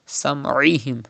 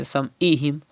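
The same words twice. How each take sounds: First: "sam'ihim" with mid-throat Ain before i; throaty Ain. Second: "sam'ihim" with a plain glottal "i"; mistaken Hamza. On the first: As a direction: squeeze the throat inside "sam'ihim". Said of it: "it is Ain". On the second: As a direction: break "sam'ihim" with Hamza instead of Ain. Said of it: "you are reading Hamza". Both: Shown as a demonstration.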